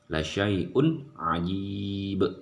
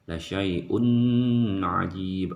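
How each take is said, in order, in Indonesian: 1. Bunyi n jelas, tanpa penahanan sengau. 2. Bunyi n ditahan dan disengaukan sebelum ajib. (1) "harus dibaca jelas, tidak boleh ditahan sama sekali dan tidak boleh didengungkan" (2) "Jangan dibaca ... itu salah"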